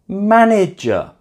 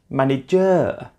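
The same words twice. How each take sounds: First: The stress is on the first syllable. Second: The stress is on a later syllable. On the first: The speaker calls it right. "stressed on the first syllable" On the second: The speaker calls it wrong. "not manager"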